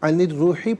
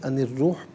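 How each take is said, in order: First: The phrase ends with a short final vowel. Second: The phrase ends on a bare consonant. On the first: The reading continues without stopping. "अनिर रूही पढ़ेंगे" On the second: The reader stops here. "वफ़ की सूरत में अनिर रूह पढ़ा जाएगा"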